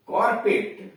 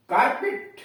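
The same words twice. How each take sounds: First: कारपेट with a rounded "kor" first syllable; England pronunciation. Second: कारपेट with an open "kaar" first syllable; US pronunciation. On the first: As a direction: say कारपेट as "KOR-pit", falling at the end. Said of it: "और कारपेट England में". (कारपेट का England वाला उच्चारण, "कॉरपिट") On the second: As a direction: say कारपेट as "KAAR-pit", pitched high. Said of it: "कारपेट US में कहते हैं". (कारपेट का अमेरिकी उच्चारण, "कारपिट") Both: Shown as a demonstration.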